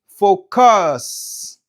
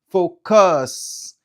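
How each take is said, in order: The two takes are said the same way.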